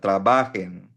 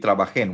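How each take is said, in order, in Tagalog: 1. Ang diin ay nasa gitnang pantig. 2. Ang diin ay nasa huling pantig. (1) "Walang asento yan" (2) "Hindi trabajen"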